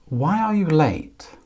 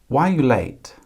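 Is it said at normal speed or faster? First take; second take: normal; faster. First: It is said at a normal, slower pace. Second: It is said at a quicker pace.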